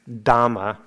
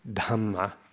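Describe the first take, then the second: First: The first consonant has no puff of air. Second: The first consonant has a strong puff of air. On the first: The speaker calls it wrong. "instead of Dhamma" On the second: The speaker calls it right. "it's Dhamma, as a bit of an exaggeration"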